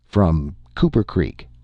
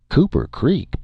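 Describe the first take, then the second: First: Said in the usual way. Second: Higher-pitched doubting question; puzzled echo. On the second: A narrator's reading. Local boy questioning where the stranger is from, puzzled. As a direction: echo the town's name in disbelief.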